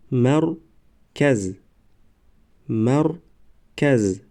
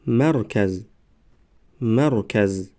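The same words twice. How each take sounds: First: Slow, syllables held and separated; slow syllable reading. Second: Said in the usual way. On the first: Shown as a demonstration. Teacher models first readings for learners, slow syllable by syllable. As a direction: sound it out for learners, pausing between syllables. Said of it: "بار یکم و دویم آهسته". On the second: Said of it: "به مثل خوانش سوم و چهارم".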